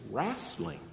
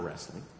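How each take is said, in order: First: The word is said with an Oklahoma pronunciation. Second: The word is said with a non-Oklahoma pronunciation. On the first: The speaker calls it right. "here's how you say it. It's wrestling" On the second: The speaker calls it wrong. "It's not wrestling"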